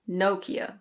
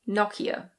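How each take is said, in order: First: It is said with an American pronunciation. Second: It is said with a British pronunciation. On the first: "In American English, it's normally Nokia" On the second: "In British English, this is Nokia"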